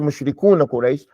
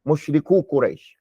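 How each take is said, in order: First: The first word ends with an n sound. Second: The first word ends without an n sound. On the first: The speaker calls it wrong. "don't say" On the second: The speaker calls it right. "You drop that noon"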